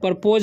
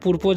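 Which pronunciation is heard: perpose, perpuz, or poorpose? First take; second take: perpose; poorpose. First: The second syllable has a long 'o' vowel. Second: It has an 'oo' vowel then long 'o'. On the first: "परपोज नहीं पढ़ना है" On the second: "या पुरपोज नहीं पढ़ना है"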